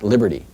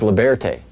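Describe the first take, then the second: First: The name is pronounced the English way. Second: The name is pronounced the French way. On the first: The speaker calls it wrong. "not Liberty" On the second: The speaker calls it right. "This is Liberté"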